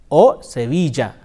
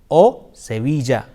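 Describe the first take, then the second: No difference in how they are said.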